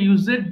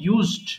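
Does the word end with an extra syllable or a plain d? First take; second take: extra syllable; plain d. First: The ending is said as an extra syllable. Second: The ending is a plain d, one syllable. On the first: The speaker calls it wrong. "এটা অনেকে ভুল করে ইউজেড বলে ফেলে" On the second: The speaker calls it right. "উচ্চারণ হয়ে যাবে ইউজড"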